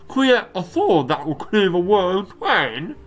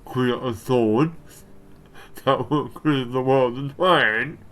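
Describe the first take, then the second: First: It is read in a put-on British accent. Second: It is read in the speaker's normal accent.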